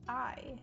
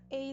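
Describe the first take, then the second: First: The vowel sounds like 'eye'. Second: The vowel sounds like 'ay'. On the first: The speaker calls it right. "A is pronounced I" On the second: The speaker calls it wrong. "I'm just saying it wrong this entire time"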